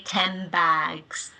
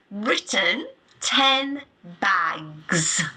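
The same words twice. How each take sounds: First: "ten bags" run together so "ten" ends in an M; connected speech assimilation; assimilated ten bags. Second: "ten bags" with a clear N and a pause between the words; careful citation form; written form, word by word. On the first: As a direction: let the lips close early, "tem bags". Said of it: "lips are closing to form the M sound". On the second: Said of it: "we don't say that in connected speech". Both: Shown as a demonstration.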